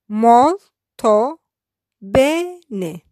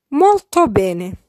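First: Molto and Bene split apart with a pause between; syllabified. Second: Molto bene said slowly, both words spelled out clearly; slow careful model. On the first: Teacher splitting Molto bene word by word for learners. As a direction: break Molto bene into two separate words. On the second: Teacher slowly modelling Molto bene before splitting it. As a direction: draw out Molto bene for learners. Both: Shown as a demonstration. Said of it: "I will syllabify each sentence".

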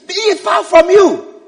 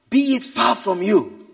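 First: High, slow, emphatic reproof; forceful rebuke. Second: Understated, slow admonishment; mild rebuke. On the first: Peter takes Jesus aside to correct him, forceful rebuke. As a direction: rebuke with raised voice. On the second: Peter takes Jesus aside to correct him, mild rebuke. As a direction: gently reprove in measured words. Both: Acted. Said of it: "began to rebuke him".

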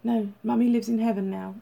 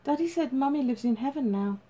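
First: Understated grief from a father; gently steady, a touch of held-back sorrow; holding back tears. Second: Put-on higher little-boy voice, unaware; innocent child. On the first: Father reminds son where Mummy is, restrained sadness. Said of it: "holding back his own tears as he spoke". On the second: Small boy tells Grandma about Mummy, innocent. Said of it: "he said innocently". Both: A narrator's reading.

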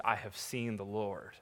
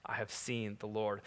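First: Softer, lower hushed declaration; quiet awe. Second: Repeated softer and lower, lingering; softer echo. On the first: Mary telling the disciples the news, hushed. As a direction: speak it with reverent wonder. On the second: Preacher echoing Mary's words to the congregation, hushed. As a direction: let it sink in gently. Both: Shown as a demonstration.

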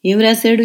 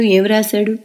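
First: Higher, louder, eager asking; eager question. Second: A touch higher, pressing again; eager repeat. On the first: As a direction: press her to tell, curious. (ఉత్సుకతతో అడగడం) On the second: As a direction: ask again, still curious. (మళ్ళీ ఉత్సుకతతో) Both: A narrator's reading. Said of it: "ఉత్సుకతగా అడుగుతున్న".

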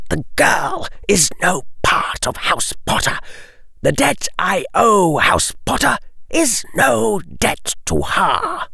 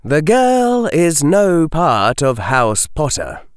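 First: Higher aristocratic voice; cold nobleman, flat denial. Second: Said in the usual way. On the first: Acted. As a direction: dismiss her coldly. Lucius voice.

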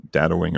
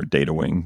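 First: "Data" with a short a, as in "dad"; short-a pronunciation. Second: "Data" with a long a, as in "day"; long-a pronunciation. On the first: Host offering both names of the game, DAT-uh pronunciation. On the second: Host offering both names of the game, DAY-tuh pronunciation. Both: Shown as a demonstration. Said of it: "depending on how you pronounce".

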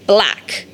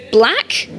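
First: BLACK as a settled statement, falling in pitch; confirming. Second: Dumbfounded echo, rising at the end; stupefied question. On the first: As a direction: say BLACK with a firm downward close. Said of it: "the Jarl confirmed". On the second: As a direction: ask it as if stunned, voice lifting. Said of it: "he said stupidly". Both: A narrator's reading.

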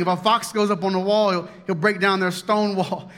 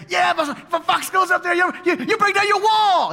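First: Said in the usual way. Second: Much higher, louder shouted sidekick squeak; shrill-pitched little bully's sidekick piping up; whiny little sidekick. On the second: Retold or imitated. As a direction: play the tiny yappy sidekick egging on the bully. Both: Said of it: "And this is Tobiah right here".

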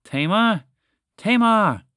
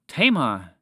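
First: High, loud cries building higher; growing panic. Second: A mild, worried call for Tamar; first panicked call. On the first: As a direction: call for a lost sister, louder each time. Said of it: "her voice grew louder and filled with more and more panic". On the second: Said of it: "her voice grew louder and filled with". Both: A narrator's reading.

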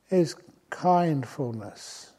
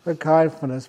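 First: "kindfulness" drawn out slowly, each syllable weighed; emphasized word. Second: "kindfulness" said louder, pressed out; stressed word. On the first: Teacher to retreatants, slowly stressing "kindfulness". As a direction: give "kindfulness" slow, deliberate weight. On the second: Teacher to retreatants, loudly stressing "kindfulness". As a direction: hit "kindfulness" with a louder push. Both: Shown as a demonstration. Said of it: "We emphasize that word".

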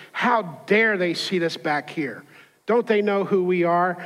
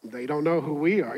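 First: Mock haughty indignation; indignant complaint. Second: Understated sardonic aside under the breath; low-key retort behind her back; mocking aside. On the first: Angry wife complains about her seat on the plane, mildly indignant. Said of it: "she's talking like this". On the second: Passengers behind answer the complaining lady among themselves, quietly mocking. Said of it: "and we're all like".

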